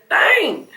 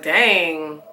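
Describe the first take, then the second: First: Breathy whispered "Dang.", said high. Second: Said in the usual way. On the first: Retold or imitated. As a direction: whisper "Dang." to yourself in dismay. Whispered dang after plain.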